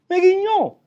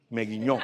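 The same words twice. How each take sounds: First: "Me guiñó" squealed very high and loud; ecstatic squeal. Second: "Me guiñó" said through a real laugh. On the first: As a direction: shriek "Me guiñó" in sheer delight. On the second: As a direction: chuckle out "Me guiñó". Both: Real, not acted.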